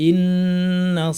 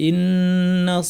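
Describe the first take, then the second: No difference in how they are said.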